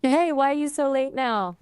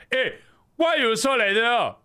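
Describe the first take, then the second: First: A light Singlish imitation, pitched up; attempted Singaporean accent. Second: High, loud Singlish accent; Singaporean accent. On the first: Assistant copying the streamer's line, mild Singaporean accent. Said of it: "do a Singaporean accent". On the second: Streamer showing the assistant the line, Singaporean accent. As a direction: demonstrate a pushy Singaporean accent, pitched up. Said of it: "do a Singaporean accent. I want you to say". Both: Shown as a demonstration.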